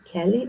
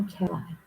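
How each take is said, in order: First: Kelly said as KEL-ee; Kelly ending in -ee. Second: Kelly said as keh-LIE; Kelly ending in -eye. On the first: Unsure reader offers one way to pronounce the friend's name, Kelly as KEL-ee. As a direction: end Kelly on a long ee sound. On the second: Unsure reader offers the other way to pronounce the friend's name, Kelly as keh-LIE. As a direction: rhyme the end of Kelly with eye. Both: Shown as a demonstration. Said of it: "don't know how you pronounce".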